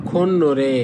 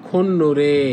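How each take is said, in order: No difference in how they are said.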